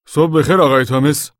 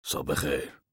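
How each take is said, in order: First: High, loud, ringing good morning; raised, high-pitched hail; loud greeting. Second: Low, restrained angry good morning; understated anger, dropped in pitch. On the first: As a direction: call out a greeting to the boss. Timothy greets farmer aloud. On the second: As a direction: return the greeting grudgingly, low and quiet. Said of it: "مرد با لحنی خشمگین گفت". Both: A narrator's reading.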